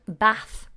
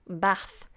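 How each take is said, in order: First: The vowel is a short ah sound. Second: The same.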